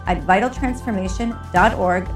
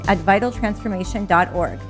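The two takes are said the same way.

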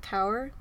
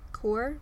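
First: "Kaur" said like "cower", rising as a question; "Kaur" as "cower", asked tentatively; unsure pronunciation. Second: "Kaur" said like "koor", rhyming with "poor", rising; retry "Kaur" as "koor" with a questioning lift; "Kaur" as one syllable "koor", unsure; second try at the name. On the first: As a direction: try "Kaur" as "kow-er" with a doubtful lift. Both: Shown as a demonstration. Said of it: "I'm sorry if I mispronounced that".

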